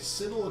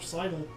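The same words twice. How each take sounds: First: The word is said in a spelling-based way. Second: The word is said in the standard way. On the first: The speaker calls it wrong. "mispronouncing a word because that means they learned it by reading it" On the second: The speaker calls it right.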